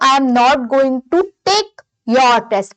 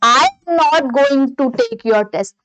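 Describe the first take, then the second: First: The stress falls on the word your. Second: The stress falls on the word I. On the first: Another person's test may be taken instead. "Take यहाँ पे take के बाद लगाती हूँ" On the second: Someone else will take the test. "अगर मैं suppose आई पे focus कर देती हूं"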